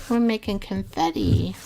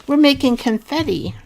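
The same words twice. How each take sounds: First: Said in the usual way. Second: Excited. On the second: Real, not acted. Excited craft announcement.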